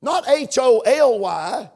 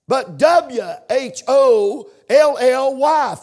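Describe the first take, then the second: First: "H O L Y" Buchstabe für Buchstabe, langsam; spelled out H O L Y. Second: "W H O L L Y" slow and emphatic, letter by letter; spelled out W H O L L Y. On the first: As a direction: spell out H O L Y slowly, letter by letter. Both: Shown as a demonstration. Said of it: "for emphasis today the word holy".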